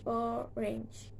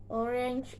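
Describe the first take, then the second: First: "orange" softly split into o and range; syllable by syllable. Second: Said in the usual way. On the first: Shown as a demonstration. Teacher showing two syllables, "orange" softly broken in two. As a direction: break "orange" into two soft beats. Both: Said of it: "two syllables".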